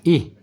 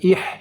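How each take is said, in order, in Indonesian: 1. Huruf h ringan, dari bagian bawah tenggorokan. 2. Huruf h lebih kasar, dari bagian atas tenggorokan. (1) "Ih, bukan ih" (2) "bukan ih"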